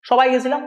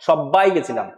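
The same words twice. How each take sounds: First: The phrase is said plainly without extra force. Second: The phrase is said with a held consonant and force. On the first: "normal" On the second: "কিন্তু জোর দিয়ে বলার সময় কি হচ্ছে"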